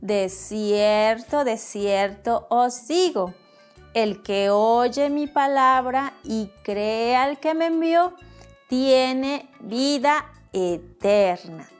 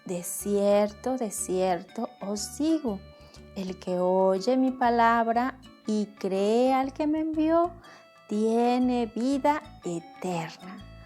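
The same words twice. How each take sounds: First: It is said in a loud voice. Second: It is said at normal volume.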